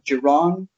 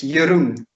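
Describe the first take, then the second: First: The name is said with English-style sounds. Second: The name is said with Dutch sounds. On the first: This is how many outsiders say it. The speaker calls it wrong. "A lot of people would say" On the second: This is how the name is really said. The speaker calls it right. "It's Jeroen"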